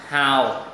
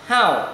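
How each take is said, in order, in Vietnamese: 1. Cao độ xuống thấp rồi lên lại. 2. Cao độ rơi mạnh từ cao xuống thấp. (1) "Thanh 3 đọc giống dấu huyền là hào" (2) "Thanh 4 đọc nhấn mạnh là how"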